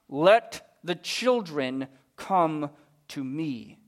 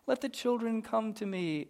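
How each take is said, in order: First: It is said angrily through gritted teeth. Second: It is said in a relaxed, casual tone.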